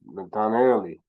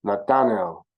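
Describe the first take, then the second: First: "Nathanaeli" with the final "li" clearly added; the right Kikongo "Nathanaeli" with its final vowel; corrected version. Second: "Nathanael" said the English way, ending on "el"; the mistaken "Nathanael" without the Kikongo ending; wrong version. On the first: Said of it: "No, I just". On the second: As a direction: say "Nathanael" without the final vowel, as a slip. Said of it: "see, you go". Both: Shown as a demonstration.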